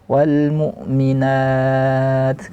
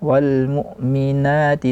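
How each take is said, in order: First: The last vowel is lengthened, ending the phrase. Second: The vowel stays short with a final short i. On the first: The reader stops at this word. "Kalau waqaf baru boleh panjang" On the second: The reader continues into the next words. "Kalau wasal disambungkan tidak boleh. ... dua harakat saja"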